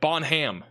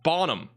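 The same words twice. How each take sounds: First: The name is said the literal, written-out way. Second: The name is said the actual local way. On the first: This is how the name appears it should be said. "Looks like Bonham" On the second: This is how the town's name is actually said. "you got Bonham"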